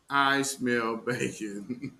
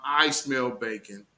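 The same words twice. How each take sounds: First: "I smell bacon" stretched out slowly, word by word; a slow, knowing "I smell bacon"; slow, drawn-out tease. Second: Said in the usual way. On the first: Shown as a demonstration. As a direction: drag out "I smell bacon" slowly, like a sly taunt.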